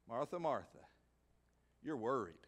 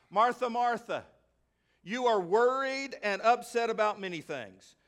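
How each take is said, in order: First: Soft, low, tender "Martha, Martha, you're worried"; preacher quietly voicing Jesus soothing Martha; gentle Jesus. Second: Louder, higher, insistent "Martha, Martha"; preacher booming Jesus' words to the church; firm Jesus. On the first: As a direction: speak it softly, like a loving rebuke. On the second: Retold or imitated. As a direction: call her name out from the pulpit. Jesus voiced in climax.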